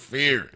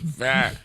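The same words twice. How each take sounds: First: The final R is strongly pronounced. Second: The final R is soft or dropped. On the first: "it's a hard R on Saint Croix" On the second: "you know how they pronounce it in Saint Thomas and Saint John"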